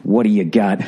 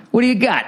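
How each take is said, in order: First: Said in the usual way. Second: Much higher mocking echo. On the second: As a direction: squeak it up high. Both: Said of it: "I go".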